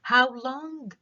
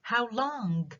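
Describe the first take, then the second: First: Higher, questioning how long; rising echo question. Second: Higher, how stressed, softer; rising echo question again. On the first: Teacher showing a rising repetition question. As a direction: ask back in disbelief, lifting. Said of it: "بيكون عندي rising intonation على long". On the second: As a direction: ask it back once more, rising. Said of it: "rising intonation على long". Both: Shown as a demonstration.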